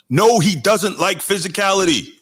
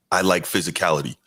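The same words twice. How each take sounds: First: Much higher, louder, exasperated denial. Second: Said in the usual way. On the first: Real, not acted. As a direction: shoot it down high and loud. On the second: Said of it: "is saying".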